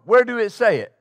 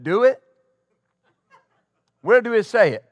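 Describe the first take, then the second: First: A hint of the old pastor's speech, blunt question; lightly voiced pastor, asking it again; imitating Pastor Morton. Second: A hint of the old pastor's way of speaking, blunt challenge; lightly voiced old pastor asks where it is written; imitating Pastor Morton. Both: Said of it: "That's how he spoke".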